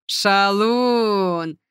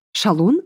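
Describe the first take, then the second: First: A drawn-out, chuckling Шалун; pleased chuckle. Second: Шалун asked with a short rise; puzzled echo. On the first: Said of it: "довольно хохотнула". (довольно хохотнув, протяжно) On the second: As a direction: echo the word questioning. (переспросить с недоумением) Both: A narrator's reading.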